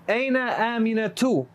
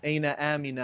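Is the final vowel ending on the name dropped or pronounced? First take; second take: pronounced; dropped. First: The name ends with a full -tu ending. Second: The name ends on a bare vowel without -tu. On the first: This is the full written grammatical form. "is how I'm telling you guys to read it" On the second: This is the pause form at sentence end. "you pronounce this as a sukun"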